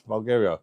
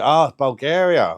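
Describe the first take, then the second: First: Said in the usual way. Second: "Ah, Bulgaria" slow, louder and higher, savouring "Bulgaria"; drawn-out welcome. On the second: Shown as a demonstration. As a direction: stretch out "Ah, Bulgaria" like a warm greeting. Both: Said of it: "You're from Bulgaria".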